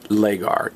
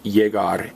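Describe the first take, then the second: First: The word begins with an L sound. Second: The word begins with a Y sound. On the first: The speaker calls it wrong. "and not legar" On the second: The speaker calls it right. "it's pronounced yegar"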